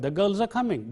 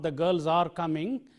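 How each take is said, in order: First: 'Are' is reduced to a short weak sound. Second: 'Are' is said in its full strong form. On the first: The speaker calls it right. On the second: The speaker calls it wrong.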